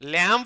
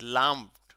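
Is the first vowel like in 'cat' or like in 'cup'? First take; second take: cat; cup. First: The vowel sounds like the one in 'cat'. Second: The vowel sounds like the one in 'cup'. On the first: The speaker calls it wrong. "ল্যাম্প না, এ নাই তো" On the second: The speaker calls it right. "ইউ আছে। লাম্পড।"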